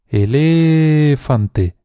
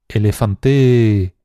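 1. El acento está en la segunda sílaba. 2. El acento está en la cuarta sílaba. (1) "alargando mucho cada una de las sílabas" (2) "alargando mucho cada una de las sílabas"

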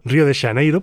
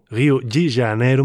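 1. O nome é pronunciado com sons galegos. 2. O nome é pronunciado com sons do português brasileiro. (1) "podríamos pronunciarlo perfectamente en gallego" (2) "más o menos dicen por allí"

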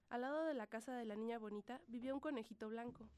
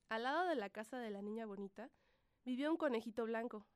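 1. Se lee con un volumen más bajo. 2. Se lee con un volumen más alto.

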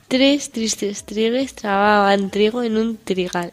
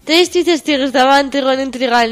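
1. Se dice a velocidad normal, moderada. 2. Se dice rápido, a velocidad alta. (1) "A velocidad normal" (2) "Y rápido"

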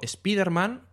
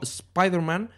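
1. El nombre se pronuncia con sonidos españoles. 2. El nombre se pronuncia con sonidos ingleses. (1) "yo si digo Spiderman, no me dice nada" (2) "como dicen, que sería un poco mejor"

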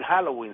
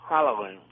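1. Se pronuncia con naturalidad y claridad. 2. Se pronuncia de forma mascullada y afectada. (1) "no terminan de decir Halloween" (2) "esa pronunciación masticada de esos sectores esnovistas cifrinos"

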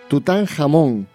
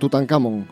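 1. La consonante del medio es un sonido j gutural. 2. La consonante del medio es una k dura. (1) "se dice con J" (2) "Pues de ninguna de las dos formas"

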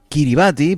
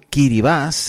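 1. El nombre termina con el sonido 'bati'. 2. El nombre termina con el sonido 'bas'.

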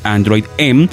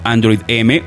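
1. La letra M se pronuncia a la manera inglesa. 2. La letra M se pronuncia a la manera española.

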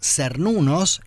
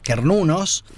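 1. La primera consonante se pronuncia suave. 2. La primera consonante se pronuncia dura. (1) "Si se pronunciaban suaves, como Cernunos, eran Satum" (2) "si se pronunciaban duras, como Cernunos, eran Kentum"

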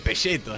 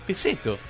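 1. Se pronuncia con una consonante de sonido italiano. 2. Se pronuncia con el sonido de s normal del español. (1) "se dice pelleto, es italiano, haciéndose los cultos" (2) "si decís peseto, quedás como un grasa"

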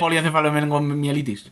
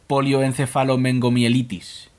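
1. La palabra sale muy rápido. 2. La palabra se lee despacio y con cuidado. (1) "había que hacerlo rápido" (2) "léelo lento"

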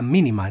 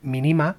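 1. El acento está en la primera sílaba. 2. El acento está en la segunda sílaba. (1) "con acento sería Mínima" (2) "creo que se dirá así"

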